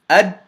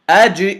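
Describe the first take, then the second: First: The final consonant is closed off without a bounce. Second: The final consonant is released with a slight bounce. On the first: The speaker calls it wrong. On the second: The speaker calls it right. "So correctly"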